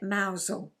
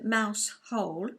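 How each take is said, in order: First: It does not sound like mouse hole. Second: It sounds like the two words mouse hole. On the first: The speaker calls it right. "You say it Mousehole" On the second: The speaker calls it wrong. "It's written mouse hole, but you don't say it like that"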